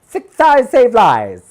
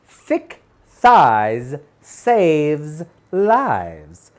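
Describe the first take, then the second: First: The phrase is said very quickly. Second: The phrase is said at a normal pace. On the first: "Say it fast" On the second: "Say it with me"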